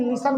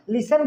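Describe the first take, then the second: First: लिसन said "lis-un"; correct reduced ending. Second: लिसन said "li-sen", with an E; wrong "sen" ending. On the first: Teacher corrects the common saying, "sun" ending. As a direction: keep the second vowel of लिसन short and neutral. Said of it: "लेकिन लिसन बोलना". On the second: Teacher quotes the common mistake, "sen" ending. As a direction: give लिसन a clear E in the ending. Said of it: "लिसन बोलता है लेकिन लिसन बोलना". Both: Shown as a demonstration.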